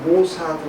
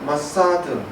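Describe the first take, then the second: First: The first vowel sounds like 'oh'. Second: The first vowel sounds like 'ah'. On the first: This is how Koreans usually say the name. "우리는 모사드 이렇게 얘기하는데" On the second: This is the original pronunciation of the name. "발음은"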